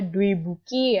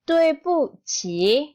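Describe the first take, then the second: First: The last syllable starts with a k sound. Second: The last syllable starts with a ch sound. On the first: The speaker calls it wrong. "bukan dibaca Dwebuki" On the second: The speaker calls it right. "Dibacanya adalah Dwebuqi"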